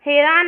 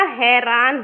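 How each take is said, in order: First: हैरान with the h dropped, "airaan"; misspelt form read out. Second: हैरान with a clear h at the start, "hairaan"; correct form. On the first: Teacher reads the wrong spelling to students, h dropped. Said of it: "नहीं होता". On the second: Teacher gives students the right spelling, clear h sound. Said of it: "होता है". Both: Shown as a demonstration.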